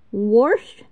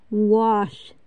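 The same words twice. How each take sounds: First: Wash said as "worsh", with an R before the SH; drawn-out dialect wash with a clear R. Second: Said in the usual way. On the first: Shown as a demonstration. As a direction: put an R into wash. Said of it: "use the letter S as R".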